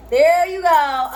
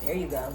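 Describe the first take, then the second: First: THERE stretched slow and louder; drawn-out, emphatic There you go. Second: Said in the usual way. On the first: Real, not acted. Repeating while fixing hair.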